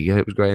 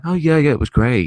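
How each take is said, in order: First: Said in the usual way. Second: Higher, louder put-on cheer; mock cheerful answer to dad; fake happy kid. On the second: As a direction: sound chirpy to hide being upset. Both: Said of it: "I was just being the happy kid".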